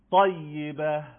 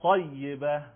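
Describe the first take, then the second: First: طیبه louder, in a recitation voice with a heavy ط; recitation model. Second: طیبه louder, with a heavy ط; repeat-after-me طیبه; recitation model. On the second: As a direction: Quran teacher modeling a word. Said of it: "بعد از من تکرار بفرمایید". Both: Shown as a demonstration.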